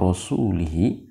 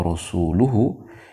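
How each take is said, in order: First: The ending is pronounced with i vowels: lihi. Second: The ending is pronounced with u vowels: luhu. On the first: God disowns the idolaters and also His Messenger. The speaker calls it wrong. "tetapi kalau kemudian dibaca annallaha bari'um minal musyrikina wa rasulihi" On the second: God and His Messenger both disown the idolaters. The speaker calls it right. "kalau dibaca annallaha bari'um minal musyrikina wa rasuluhu"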